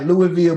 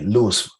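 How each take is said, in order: First: The name ends with a full 'ville' sound. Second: The name ends with a short 'fa' sound. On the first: This is how the name is usually pronounced. "It's pronounced like Louisville" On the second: This is how locals say the name. "we say it like L O U I S F A"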